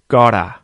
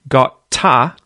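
First: The middle T is a soft, quick flap. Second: The middle T is a hard, separate T sound. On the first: The speaker calls it right. "It becomes the T flap" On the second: The speaker calls it wrong. "the T in the middle there isn't a hard T"

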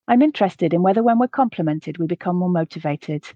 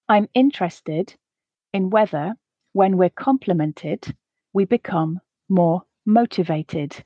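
First: The sentence is read at a natural pace. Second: The sentence is read slowly. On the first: "the second time at a more natural pace" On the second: "the first time slowly to allow you to grasp the words"

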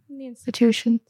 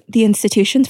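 First: It is said at a normal volume. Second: It is said loudly and emphatically.

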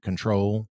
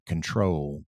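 First: It is said in a standard American accent. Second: It is said in a deep Southern accent. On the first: "In just a standard accent" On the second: "And then a deeper accent would be"

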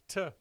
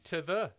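First: The word 'the' is reduced to one syllable. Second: The word 'the' is pronounced in full.

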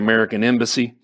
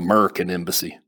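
First: American is said in full, without a drawl. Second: American is clipped to Merkin in a Texan drawl.

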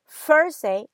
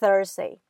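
First: The first sound is not a 'th' sound. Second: The first sound is a 'th' sound. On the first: The speaker calls it wrong. "some say Thursday" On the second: The speaker calls it right. "instead of Thursday"

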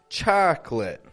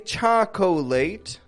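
First: The word is said with two syllables. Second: The word is said with three syllables. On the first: The speaker calls it right. "most English speakers actually pronounce it as a two-syllable word" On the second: The speaker calls it wrong. "We do not say chocolate"

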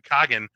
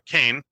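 First: The name is said as two syllables, Kagan. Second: The name is said as one syllable, Cain. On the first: "they refer to Kagan" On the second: "or as Nate pronounces it, and I think he might be right"

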